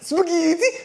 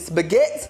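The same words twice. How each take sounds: First: It is said in an exaggerated Italian accent. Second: It is said in a plain American accent.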